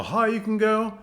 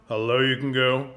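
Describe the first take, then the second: First: Pitched way up high and a bit louder. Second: Dropped down into the low register. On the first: Vocal coach shows how high you can go, high-pitched. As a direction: send your voice right up high. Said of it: "how high you can go". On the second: Vocal coach shows how low you can go, low voice. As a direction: take your voice down low. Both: Shown as a demonstration.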